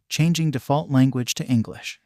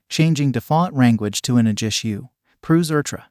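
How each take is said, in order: First: Said in the usual way. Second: Mock Japanese-accented English, L turned to R. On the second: A narrator's reading. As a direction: switch into a heavy Japanese accent. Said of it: "with an accent thicker than Machai".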